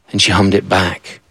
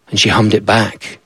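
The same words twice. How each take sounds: The two takes are said the same way.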